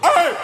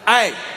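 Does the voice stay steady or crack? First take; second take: cracks; steady. First: The yell cracks from exasperation. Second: The yell is steady and controlled.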